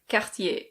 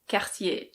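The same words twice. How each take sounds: First: It is said with a French pronunciation. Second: The same.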